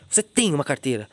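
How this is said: It is said in an accusing tone. The speaker is accusing the listener. "Sabe o que eu tô acusando"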